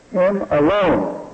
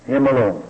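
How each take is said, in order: First: Him alone, slow, with alone pressed hard; stress on alone. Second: Said in the usual way. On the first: Shown as a demonstration. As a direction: lean on the word alone. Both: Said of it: "The emphasis on the alone".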